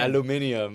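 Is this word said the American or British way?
British. It is said the British way, five syllables. "You guys say it crazy"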